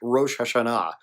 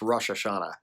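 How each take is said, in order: First: It is pronounced in a Hebrew style. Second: It is pronounced in an American English style.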